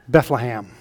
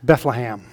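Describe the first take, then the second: First: The second and third syllables have short A vowels. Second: The same.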